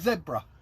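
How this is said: The word is said the Australian way. "Australia say zebra"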